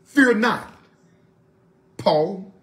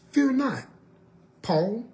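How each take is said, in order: First: A firm announcing angel, louder on fear; angel's words. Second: Said in the usual way. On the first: Retold or imitated. Preacher voicing the angel to Paul, firm and loud. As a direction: proclaim it like the angel. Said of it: "and this is what he said". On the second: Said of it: "this angel was very specific".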